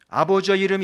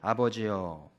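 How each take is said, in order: First: 아버지여 runs straight into the next word. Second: A one-second pause follows 아버지여.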